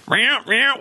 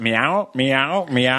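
First: Odd cartoon cat meow. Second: Cat meow. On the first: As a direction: meow pitched up high, a weird take on a cartoon cat. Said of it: "But he's like". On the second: Retold or imitated. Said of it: "It goes".

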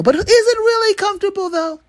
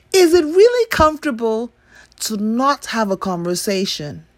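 First: High mocking question; sarcastic high voice. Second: Skeptical question. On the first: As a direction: squeak it out sarcastically. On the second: Acted. Repeated question, pressing.

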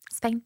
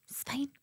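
First: Said in the usual way. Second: Put-on little girl whispering it's fine; whispered reassurance. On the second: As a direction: whisper it, face screwed up. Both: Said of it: "screwed her wee face up".

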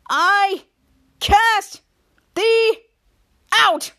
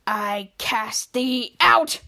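First: Higher, louder word-by-word proclamation; hammed-up shout of the banishment; shouted decree. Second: Low, slow mock-solemn banishing; [name], pointing at Mika, banishes her in a low, slow decree. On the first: [name], running to the door, shouts the banishment at Mika.

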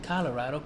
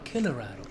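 First: Said in the usual way. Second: "Colorado" with the first syllable said as "kill"; nickname pronunciation. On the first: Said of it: "This man said Colorado, not Colorado". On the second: Shown as a demonstration. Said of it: "not Colorado, Colorado".

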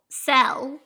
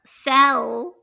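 First: Cell drawled with a Southern vowel; Southern accent. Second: Cell said short and clipped, plain E; careful correction. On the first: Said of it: "my Southern accent comes out on". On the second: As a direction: repeat Cell the standard way, crisp. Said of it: "Sorry. Cell". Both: Real, not acted.

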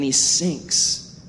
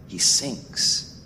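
First: Said in the usual way. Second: Hushed, breath-only repeat; sombre, voiceless echo; grave hush. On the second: Real, not acted. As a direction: let it drop to a grave near-whisper. Repeated low for dramatic weight.

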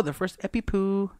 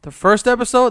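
First: "Epi Poo" as a silly garbling of "episode"; playful mispronunciation. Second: Said in the usual way. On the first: Pretend. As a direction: turn "episode" into a cutesy "Epi Poo", ending on "poo". Playful garbling of episode, others echo.

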